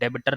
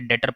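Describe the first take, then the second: First: A 'b' sound is pronounced in the middle. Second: The 'b' sound is silent in the middle. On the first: The speaker calls it wrong. "ये डेबिटर नहीं पढ़ा जाता" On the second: The speaker calls it right. "ये डेटर पढ़ा जाता है बेटा"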